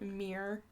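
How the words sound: It is said in a Michigan accent. This is how people from the speaker's home state say it. The speaker calls it wrong. "we say mirror... we're lazy talkers"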